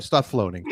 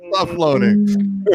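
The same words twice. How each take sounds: First: Said in the usual way. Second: Mock-slow teasing command; slow drawn-out. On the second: Shown as a demonstration. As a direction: Stop floating stretched very slowly and pitched higher. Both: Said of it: "repeats it drawn out".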